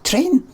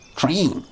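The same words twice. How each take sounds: First: The vowel is a steady, unchanging ay sound. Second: The vowel sounds like a long ee. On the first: The speaker calls it right. "I'm saying it properly" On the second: The speaker calls it wrong. "You probably say it like T R E E N"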